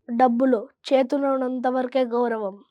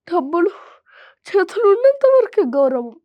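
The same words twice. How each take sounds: First: It is said in a neutral tone. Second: It is said in a sad tone.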